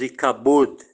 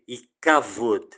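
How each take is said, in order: First: The middle consonant is a B sound. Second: The middle consonant is a V sound. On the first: This is the usual Portuguese pronunciation. "Nós falamos Ikabod com som de B" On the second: This is the original Hebrew pronunciation. "Em hebraico tem o som de C"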